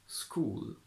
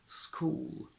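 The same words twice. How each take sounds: Both takes have the same delivery.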